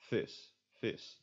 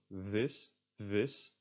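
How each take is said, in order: First: "vis" said as "fiss" with a voiceless F; no buzz on the V of "vis"; devoiced V. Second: "vis" starting on a buzzed V; voiced V. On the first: Teacher contrasting two ways to say fish, devoiced V. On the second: Teacher contrasting two ways to say fish, voiced V. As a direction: voice box on for the V in "vis". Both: Shown as a demonstration. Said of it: "I don't activate my voice box".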